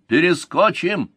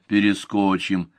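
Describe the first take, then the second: First: High, drawn-out bark; barked reply. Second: Said in the usual way. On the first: A narrator's reading. Soldier boasting to his commander about the mountains, barked high and slow. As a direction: bark it out boldly, word stretched. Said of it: "Гед рявкнул".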